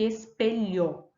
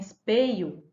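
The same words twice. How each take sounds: First: The word is said in its full form. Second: The word is said in an easier, reduced form. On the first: The speaker calls it right. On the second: The speaker calls it wrong.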